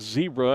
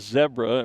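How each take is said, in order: First: It is said the American way. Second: It is said the international way. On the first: "Why do we call it zebra" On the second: "most of the rest of the world calls it zebra"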